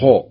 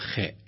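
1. صوت الخاء ثقيل جدًا، مع استدارة الشفتين. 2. صوت الخاء خفيف ورقيق. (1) "يبالغ في التفخيم فيضمه" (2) "يقرأ الخاء بالاستفال يجعل حرف مرقق أو مستفل"

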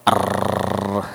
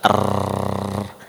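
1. R-nya terus bergetar dalam getaran panjang. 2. R-nya terus bergetar dalam getaran panjang.

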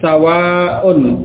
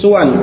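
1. Vokal pertama adalah a, dengan akhiran panjang. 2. Vokal pertama adalah u, dengan akhiran pendek. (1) "dibaca dengan sawaun... sinnya... di fathah" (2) "suwan dengan dhammah pada huruf sin"

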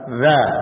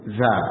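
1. Konsonannya bunyi th yang lembut. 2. Konsonannya bunyi z yang berdengung. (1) "Yang benar za al" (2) "Za ini keliru"

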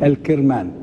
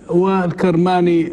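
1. الصائت الأول هو 'i'، Kirmani. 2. الصائت الأول هو 'a'، Karmani. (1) "يقولون بكسر الكاف" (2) "المحدثون ينطقونها بفتح الكاف"

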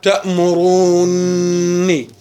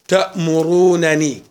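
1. النونان تندمجان في نون واحدة طويلة. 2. يُنطق نونان منفصلتان. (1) "عند الادغام" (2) "خلنا نقرأ الأولى بالفك"

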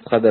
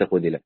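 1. هو مضبوط كفعل معلوم: khadhala. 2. هو مضبوط كفعل مجهول: khudhila. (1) "فالأنسب هنا كلمة خذل" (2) "وليس خذل"

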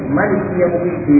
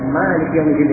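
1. Vokal pertama pada Malik dibaca pendek. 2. Vokal pertama pada Malik dibaca panjang. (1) "Boleh dibaca pendek" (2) "boleh dibaca Malik yaumiddin dengan panjang ini ya"

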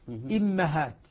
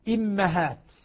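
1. الحركة بعد الميم هي 'a'. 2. الحركة بعد الميم هي 'a'.

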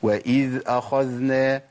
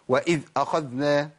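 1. صوت 'dh' يجري بلين ويستمر. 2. صوت 'dh' يُقطع فجأة. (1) "بالراحه خالص" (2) "اقطع الصوت"

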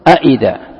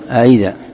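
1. الهمزة الثانية منطوقة كاملة وواضحة. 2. الهمزة الثانية مُليَّنة نحو صوت 'y'. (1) "لو حققتها ستقول أئذا" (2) "إذا ما تحققها ستقول أئذا أئذا"

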